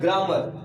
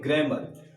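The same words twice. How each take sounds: First: ग्रामर with a broad aa, like graamar; ग्रामर British style with open aa; British grammar. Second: ग्रामर with a front e vowel, like gremar; ग्रामर American style with a flat short vowel; American grammar. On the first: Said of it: "तो हम लोग क्या पढ़ते हैं". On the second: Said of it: "American का जो pronunciation". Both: Shown as a demonstration.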